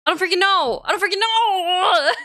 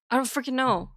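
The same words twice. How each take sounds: First: Much higher, louder frustrated cry; near-crying frustrated outburst; exasperated yell. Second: Said in the usual way. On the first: Real, not acted. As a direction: throw your hands up and yell it. Frustrated repetition.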